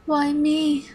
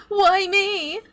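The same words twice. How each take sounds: First: High mock-plaintive question; mocking plea. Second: Very high, louder mock-plaintive cry; mocking wail. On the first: Computer villain mimics its tortured captives, mock pleading. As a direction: mimic a victim's whine, held back. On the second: Computer villain mimics tortured captives, escalating mock wail. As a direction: push the mimicked plea up into a wail.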